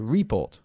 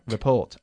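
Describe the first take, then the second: First: The stress is on the first syllable. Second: The stress is on the second syllable. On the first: The speaker calls it wrong. "No, estás en el report" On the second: The speaker calls it right. "Enfatizando la segunda sílaba ahí"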